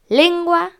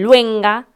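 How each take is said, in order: First: The word begins with the sounds 'len'. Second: The word begins with the sounds 'luen'. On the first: The speaker calls it right. "Lengua es otra palabra difícil" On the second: The speaker calls it wrong. "que dicen luenga"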